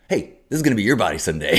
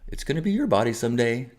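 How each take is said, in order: First: It is said in a confrontational tone. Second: It is said in a gentle tone.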